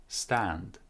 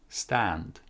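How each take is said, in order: Both takes have the same delivery.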